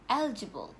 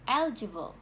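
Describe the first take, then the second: No difference in how they are said.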